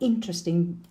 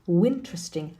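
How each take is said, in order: First: The word begins directly with a vowel sound. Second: The word begins with an added w sound.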